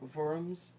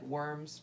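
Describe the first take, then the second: First: The word begins with a V sound. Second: The word begins with a W sound. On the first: The speaker calls it right. "it's German, so that's usually pronounced V" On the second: The speaker calls it wrong. "It looks like worms"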